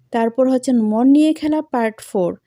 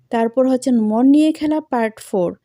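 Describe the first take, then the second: Both takes have the same delivery.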